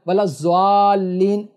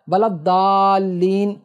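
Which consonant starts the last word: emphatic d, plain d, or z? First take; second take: z; plain d. First: The last word starts with a z sound. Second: The last word starts with a plain d sound. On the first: "ये भी नहीं पढ़ना है" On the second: "दाल नहीं पढ़ना है"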